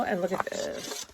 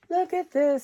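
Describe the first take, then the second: First: Soft unvoiced whisper, like sharing a secret; hushed whisper. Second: High delighted exclamation; excited. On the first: Showing her craft scraps to viewers, hushed whisper. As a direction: lean in and whisper it. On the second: Showing her craft scraps to viewers, high delighted exclamation. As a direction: pitch it up with glee. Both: Real, not acted.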